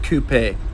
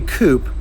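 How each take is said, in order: First: The word is said a non-American way. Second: The word is said the American way. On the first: "instead of coupe" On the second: "Why do Americans say coupe"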